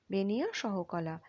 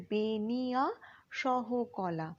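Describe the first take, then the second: First: Said in the usual way. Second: Slow, separated syllables in বেনিয়া সহকলা; drawn out syllable by syllable. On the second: Shown as a demonstration. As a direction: stretch বেনিয়া সহকলা for learners, part by part. Teacher sounds out the term.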